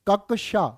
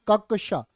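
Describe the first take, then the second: No difference in how they are said.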